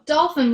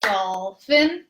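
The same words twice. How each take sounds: First: Slow, drawn out dolphin; sing-song rhythmic syllables; stretched syllables. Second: Dolphin split into two even beats; dol-phin, one clap each; rhythmic clapping count; clapped syllables. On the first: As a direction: pull dolphin out over two beats. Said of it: "dolphin would go dolphin". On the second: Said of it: "or if you're clapping it". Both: Shown as a demonstration.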